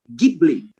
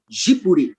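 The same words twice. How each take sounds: First: It begins with a hard g, Italian style. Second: It is said Japanese style, without an l sound. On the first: "na Itália, é com um G, som de G" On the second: "como eles não têm o hábito de pronunciar a letra L, eles falam Ghibli"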